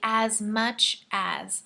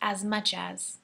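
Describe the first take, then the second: First: The phrase is spoken slowly and carefully. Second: The phrase is spoken quickly.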